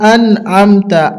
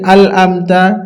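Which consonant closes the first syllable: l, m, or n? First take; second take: n; l. First: The first syllable ends in an n sound. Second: The first syllable ends in an l sound. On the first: The speaker calls it right. "কিন্তু আসলে এটা হবে আন'আমতা" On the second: The speaker calls it wrong. "অনেকজন পড়ি আল আমতা"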